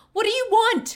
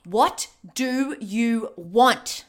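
First: Loud, frightened demand; desperate demand. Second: Slow, drawn-out repeated demand; slow pleading. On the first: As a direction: shout it at the captor. Demanding answer from captor. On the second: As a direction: drag each word out, pleading. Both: Acted.

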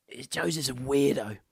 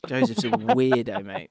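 First: Said in the usual way. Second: Teasing emphasis. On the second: Real, not acted. Repeats the verdict louder.

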